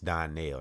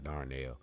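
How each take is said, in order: First: The first syllable has no R sound. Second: The first syllable has an R sound. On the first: The speaker calls it right. "It's Donnell" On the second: The speaker calls it wrong. "not Darnell"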